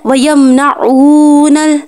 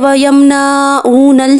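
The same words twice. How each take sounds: First: The 'na' sound is kept short and quick. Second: The 'na' sound is drawn out long. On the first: The speaker calls it right. "ठीक है" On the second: The speaker calls it wrong. "अक्सर लोग पढ़ते हैं वयमनऊनल, नहीं, ये गलत है।"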